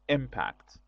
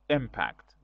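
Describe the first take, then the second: First: The stress is on the first syllable. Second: The same.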